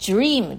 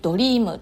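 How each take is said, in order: First: It is said the English way, closer to 'jream'. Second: It is said with Japanese katakana-style sounds. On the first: The speaker calls it right. "でも英語だとドリームですよね" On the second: The speaker calls it wrong. "日本語でも普通にドリームとか言うじゃないですか"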